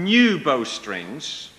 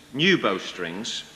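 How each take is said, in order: First: "new bowstrings" drawn out slowly; deliberate emphasis. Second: "new bowstrings" slow and low; lowered repeat. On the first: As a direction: stretch "new" and lift the end of "bowstrings". Samson feeds a false secret. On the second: Samson repeats the false secret lower. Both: Acted.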